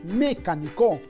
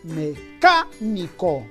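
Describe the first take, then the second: First: The stress is on the first syllable. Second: The stress is on the second syllable. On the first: The speaker calls it wrong. "creo que no decimos mecánico, por lo tanto creo que no sería sobre esdrújula" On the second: The speaker calls it right. "la mayor fuerza de voz está en la antepenúltima sílaba, es decir, en la K"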